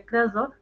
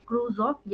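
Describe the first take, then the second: First: Crus said as "krus", short vowel; short-vowel pronunciation. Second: Crus said like "cruise"; cruise pronunciation. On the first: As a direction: say crus to rhyme with "bus". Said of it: "कई teacher क्रस बोलते हैं". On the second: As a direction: say crus with a long oo and a z. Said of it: "कई बच्चे इसको क्रूज बोलते हैं". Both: Shown as a demonstration.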